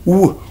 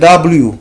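First: It is said as a short gliding sound. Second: It is said as the full letter name. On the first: This is the sound the letter makes. "mais le son c'est W" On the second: This is the name of the letter. "le nom c'est W"

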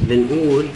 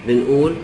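Both takes have the same delivery.

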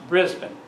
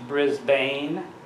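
First: The name is said the Australian way. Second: The name is said in a non-Australian way. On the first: The speaker calls it right. "it's pronounced Brisbane. That's how the Aussies pronounce it" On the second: The speaker calls it wrong. "it's not pronounced Brisbane"

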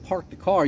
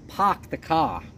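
First: It is said in a general American accent. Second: It is said in a Boston accent. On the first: "you don't park the car" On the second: "if you go to Boston, ... you park the car"

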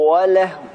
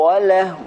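Both takes have the same delivery.

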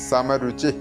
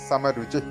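No difference in how they are said.

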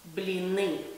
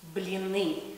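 No difference in how they are said.

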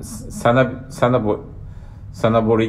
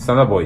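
First: The word ends with a full 'ri' syllable. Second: The word ends with a plain 'i' sound.

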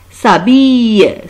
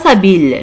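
First: The word ends in a 'y' sound. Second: The word does not end in a 'y' sound. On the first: The speaker calls it right. "c'est le son ye" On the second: The speaker calls it wrong. "Ce n'est pas s'habille, non"

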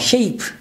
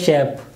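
First: The vowel is a gliding diphthong. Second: The vowel is a short single vowel. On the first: The speaker calls it right. "actual sound is this one, this diphthong" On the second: The speaker calls it wrong. "We say shape, it goes close to this one"

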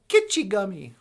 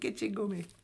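First: The word begins with a hard K sound. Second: The word begins with a G sound. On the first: This is the library's misspelled version of the name. The speaker calls it wrong. "a library that calls itself Kitchigami, like kitsch" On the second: This is the intended Ojibwe name meaning great sea. The speaker calls it right. "they mean to say Kitchigami"

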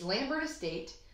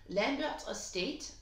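First: The name is said in a plain English accent. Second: The name is said in a French accent.

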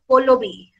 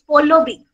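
First: The first vowel sounds like an 'a'. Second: The first vowel sounds like an 'o'. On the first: "they pronounce my name as Pallavi" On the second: "A changes to O"

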